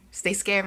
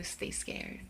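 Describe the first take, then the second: First: Punchy, raised-voice sign-off; big spooky farewell, falling at the end; loud catchphrase. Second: Soft, airy sign-off; quiet spooky farewell; hushed catchphrase. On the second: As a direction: say it low, almost under the breath. Catchphrase sign-off, said low first. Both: Pretend.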